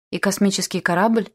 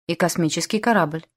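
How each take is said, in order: First: КОРАБЛЬ rising at the end, in mild awe; reverent question. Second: Said in the usual way. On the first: A narrator's reading. Boy asks the general about flying, КОРАБЛЬ rising in awe. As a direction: ask with КОРАБЛЬ lifted into a question. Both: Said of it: "благоговейно спросил Эллиот".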